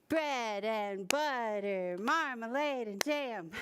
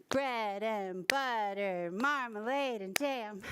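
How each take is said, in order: No difference in how they are said.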